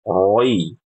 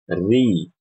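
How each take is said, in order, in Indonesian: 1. Vokalnya terdengar tebal dan bulat, seperti roi. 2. Vokalnya terdengar tipis dan jelas, seperti ri. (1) "termasuk kesalahan kalau baca huruf ro yang kasroh bacanya kayak gini" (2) "Yang benar, ... Dibaca dengan ti, tipis"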